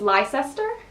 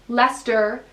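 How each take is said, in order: First: The name is said the way an American would guess. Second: The name is said the local English way. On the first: The speaker calls it wrong. "I used to think it was Leicester" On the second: The speaker calls it right. "but it's Leicester"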